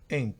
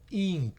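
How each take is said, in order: First: The vowel is said short, between i and e. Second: The vowel is said long and full. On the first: The speaker calls it right. "sino ink, una especie de, de I hacia E, que es una I corta" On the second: The speaker calls it wrong. "no ink"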